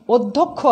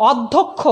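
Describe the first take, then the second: First: অধ্যক্ষ opening on a closed "o"; correct spoken vowel. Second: অধ্যক্ষ opening on an open "aw"; as-written vowel. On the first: Teacher shows the pronunciation, অধ্যক্ষ with closed "o". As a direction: say অধ্যক্ষ as "odhokkho". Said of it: "আমরা উচ্চারণ করছি". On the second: Teacher shows the spelling, অধ্যক্ষ with open "aw". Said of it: "আমরা লিখছি". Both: Shown as a demonstration.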